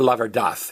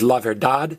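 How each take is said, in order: First: The final consonant is a soft th sound. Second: The final consonant is a hard d sound.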